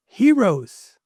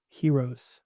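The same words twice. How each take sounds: First: Heroes thrown out high and loud; Heroes, lifted high and loud, falling at the end; emphatic heroes. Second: A hushed, falling heroes; soft heroes. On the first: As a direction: punch Heroes up like a rallying cry. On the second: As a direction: let heroes fall away softly. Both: Real, not acted.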